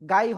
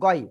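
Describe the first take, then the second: First: The syllable is said with an open 'ai' vowel. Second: The syllable is said with a rounded 'oi' vowel. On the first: The speaker calls it wrong. "গাই হবে না" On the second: The speaker calls it right. "এটা গই হবে"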